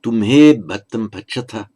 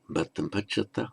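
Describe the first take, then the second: First: "Tumhe" said loud and firm; pronoun stressed. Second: "Bhattam pachata" said quieter; softer short form. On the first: Teacher reading the full form with pronoun, louder. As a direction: lean on "Tumhe". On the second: Teacher giving the short form, softer. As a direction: let it drop softly. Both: Shown as a demonstration. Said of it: "or just".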